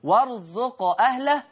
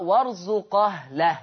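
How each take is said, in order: First: Said in the usual way. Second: "وارزق أهله" linked as warzuqahlah; no glottal stop in "وارزق أهله", warzu-qahlah; hamza vowel transferred. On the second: Shown as a demonstration. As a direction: slowly glide qaf into "ah" in "وارزق أهله". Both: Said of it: "بالنقل في الألفاظ الآتية".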